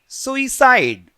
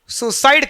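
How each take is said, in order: First: It is said with three syllables, soo-ee-side. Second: It is said with two syllables, soo-side. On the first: The speaker calls it right. "This is basically सुइसाइड" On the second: The speaker calls it wrong. "कुछ students इसको सुसाइड कहते हैं, जो कि गलत है।"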